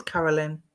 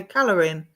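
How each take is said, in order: First: Said in the usual way. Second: "Calorin", with L and R swapped from Carolyn; name slip. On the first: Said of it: "What did I say?". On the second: Retold or imitated. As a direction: trip over the name, saying "Calorin" as CAL-uh-rin. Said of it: "I tripped over my words".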